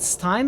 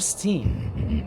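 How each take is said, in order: First: The vowel sounds like 'eye'. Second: The vowel sounds like 'ee'. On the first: "Is it Stein or Steen?" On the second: "I think it's Steen"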